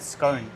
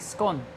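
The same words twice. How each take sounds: First: The word rhymes with tone, a long o. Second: The word rhymes with gone, a short o. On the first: "I asked the maid in a boring tone to order me a buttered scone" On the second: "The silly girl was only gone and done and ordered me a bloody scone"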